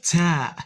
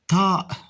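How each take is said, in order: First: The first consonant sounds plain and light. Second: The first consonant sounds deep and emphatic. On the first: The speaker calls it wrong. "not ta" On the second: The speaker calls it right. "with a deeper sound"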